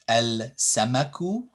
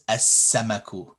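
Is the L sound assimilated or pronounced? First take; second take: pronounced; assimilated. First: The L is pronounced before the s. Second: The L merges into a doubled s. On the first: The speaker calls it wrong. "you wouldn't pronounce the L" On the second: The speaker calls it right. "these ones on the right side is the correct way"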